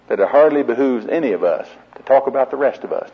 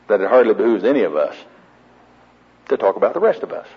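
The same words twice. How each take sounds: First: The sentence is spoken at a normal pace. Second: The sentence is spoken slowly and deliberately.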